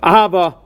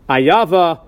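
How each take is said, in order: First: The middle consonant is an h sound. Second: The middle consonant is a y sound. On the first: Love. The speaker calls it right. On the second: Enmity. The speaker calls it wrong.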